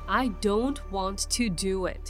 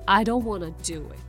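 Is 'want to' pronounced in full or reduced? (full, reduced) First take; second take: full; reduced. First: Want to is said as two full words. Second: Want to is run together as wanna. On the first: It sounds like a firm, emphatic refusal. "I don't want to do it ですけど" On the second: It sounds like a light, casual refusal. "wanna にすると"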